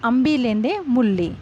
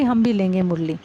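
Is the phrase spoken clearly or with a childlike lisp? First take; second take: lisped; clear. First: The words are lisped like a small child's speech. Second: The words are pronounced clearly in standard Hindi. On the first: "छोटे बच्चे थे वो तुतलाकर बोलते थे" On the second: "मतलब इसका हिंदी क्या है कि"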